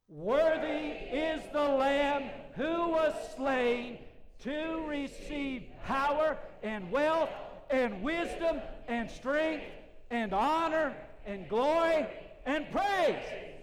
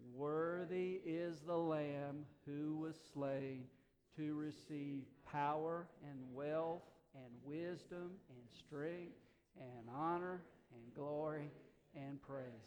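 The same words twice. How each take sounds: First: It is said at full volume. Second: It is said somewhat louder.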